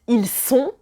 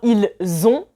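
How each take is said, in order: First: The words are linked with an S sound. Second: The words are linked with a Z sound. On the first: They are something. The speaker calls it wrong. "moi j'entends ils sont, le verbe être" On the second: They have something. The speaker calls it right. "on prononce le son Z et pas le son S"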